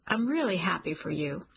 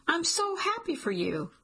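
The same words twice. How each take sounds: First: Mean it, but let the sting slip through; hurt showing through. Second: High, bright burst of joy on so; gushing with sudden relief; overjoyed. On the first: Cliff answers Jolene's refusal, sincere with a hint of hurt. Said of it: "lets the hurt in his voice slip through". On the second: Jolene tells Cliff she's thrilled he stays, high and overjoyed. Jolene reacts to his staying. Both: Acted.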